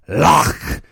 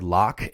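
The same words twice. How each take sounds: First: "Loch" with a long throaty rasped ending; loud "Loch" with spitting guttural ch; exaggerated Scottish loch. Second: Said in the usual way. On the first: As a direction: hock up the end of "Loch". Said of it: "says it like".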